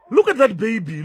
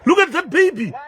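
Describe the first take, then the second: First: Said in the usual way. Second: High, loud shocked shout with a laugh; stunned outburst, pitched high and loud; shocked cry. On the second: Real, not acted. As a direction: cry out in disbelief at the sight. Shocked at baby collapsing.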